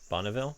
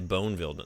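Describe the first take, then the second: First: The first syllable is short, like 'bon'. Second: The first syllable is long, like 'bone'. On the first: The speaker calls it right. "maybe we need another N in there" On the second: The speaker calls it wrong. "I was about to say Boneville"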